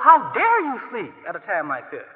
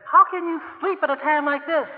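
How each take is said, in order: First: Indignant. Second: Exasperated plea. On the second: Disciples' plea, higher. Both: Pretend.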